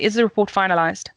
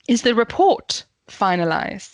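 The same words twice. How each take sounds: First: It is said flatly, like a statement. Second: It is said with question intonation, stressing report. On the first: It is unclear whether it is being asked or stated. The speaker calls it wrong. "is that a statement? Is that a question?" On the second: It is clearly being asked. The speaker calls it right. "make sure that it sounds like a question"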